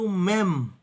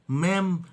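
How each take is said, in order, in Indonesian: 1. Vokalnya terdengar seperti 'eh'. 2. Vokalnya terdengar seperti 'eh'.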